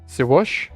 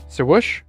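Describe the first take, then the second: No difference in how they are said.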